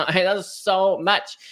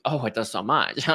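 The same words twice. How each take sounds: First: Slow, higher, louder with a laugh; amused, emphatic repeat; laughing emphasis. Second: Said in the usual way. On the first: Real, not acted. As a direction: laugh it out and lean on so.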